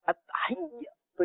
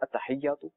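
First: It is forced and breaks before the last syllable. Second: It is said easily and flows without a break. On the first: The speaker calls it wrong. "اتحیاتو میں اگر زور لگاؤں گا یہ رک گئے نا" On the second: The speaker calls it right. "نو"

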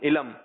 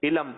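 No difference in how they are said.

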